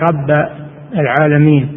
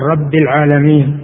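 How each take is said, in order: First: The word rabb ends with an a vowel. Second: The word rabb ends with an i vowel. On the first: The speaker calls it wrong. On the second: The speaker calls it right.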